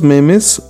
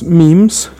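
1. La palabra tiene una pronunciación española. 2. La palabra tiene una pronunciación inglesa.

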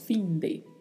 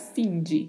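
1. O 'de' tem um d à espanhola. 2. O 'de' tem um d à portuguesa. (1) "então falamos fim de" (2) "para não pronunciar fim de. Não tem esse de, essa pronúncia de no espanhol"

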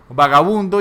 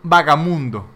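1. La consonante del medio es un sonido b. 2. La consonante del medio es un sonido m. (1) "que es como vagabundo" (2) "puede decir vagamundo"

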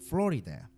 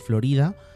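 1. Se dice con pronunciación inglesa. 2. Se dice con pronunciación española. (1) "los angloparlantes dirían Florida" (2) "nosotros en español decimos Florida"

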